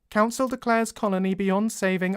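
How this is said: The voice sounds flat, stiff and robotic.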